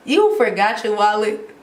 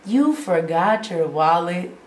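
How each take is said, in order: First: More emphatic incredulous repeat; exasperated question, replayed with force; retold disbelief. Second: Slow, drawn-out incredulous question; stunned question, replayed slowly; retold disbelief. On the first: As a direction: push the mock disbelief harder. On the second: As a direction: let the mock disbelief sink in. Acting out her disbelieving reply to dad.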